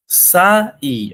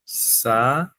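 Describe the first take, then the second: First: Said in the usual way. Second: "Saí" dito Sa... í, com pausa entre as sílabas; sílabas separadas. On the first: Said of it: "separa a palavra". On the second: Shown as a demonstration. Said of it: "separa a palavra, fica assim". ("Saí" silabado: Sa, pausa, í)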